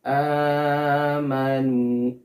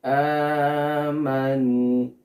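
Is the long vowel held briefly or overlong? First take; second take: overlong; overlong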